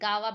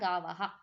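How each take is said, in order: First: The word ends on a plain vowel, no 'ha'. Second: The word ends with an added breathy 'ha' sound. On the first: The speaker calls it wrong. "ಗಾವ ಬೇಡ" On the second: The speaker calls it right. "ಗಾವಹ ಅಂತ ಹೇಳಿ"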